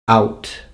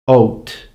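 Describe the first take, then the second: First: The vowel is pronounced as in the 1900s. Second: The vowel is pronounced as in the 1600s. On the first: "nineteen hundreds" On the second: "sixteen hundreds"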